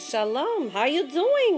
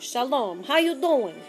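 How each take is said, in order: First: It is said in a put-on Yiddish accent. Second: It is said in a casual street-style voice. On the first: "Or in my Yiddish voice" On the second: "or shall I say it in my different voice? Yo"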